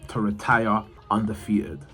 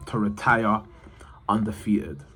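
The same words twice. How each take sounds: The two takes are said the same way.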